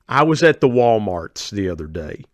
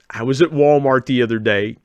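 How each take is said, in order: First: The store name ends with an added s. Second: The store name has no added s. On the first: This is how local people say it. "in West Virginia we would say it like this" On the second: This is how the speaker personally says it. "that's not how I say it"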